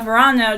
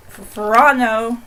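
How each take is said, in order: First: Said in the usual way. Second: Verano said slowly, each syllable drawn out; saying the name. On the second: Shown as a demonstration. Showing viewers how to say Verano, slow. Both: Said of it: "that's how you say something".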